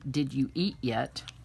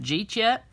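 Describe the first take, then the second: First: Each word is said fully and separately. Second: The first three words blur into one syllable. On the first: "We also say" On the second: "And it comes out"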